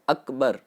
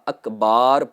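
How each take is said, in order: First: No vowel is drawn out. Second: The second vowel is drawn out long. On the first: The speaker calls it right. "Normal अंदाज में इसको पढ़ा जाएगा" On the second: The speaker calls it wrong. "बा को अगर खींच दिया अकबार पढ़ लिया"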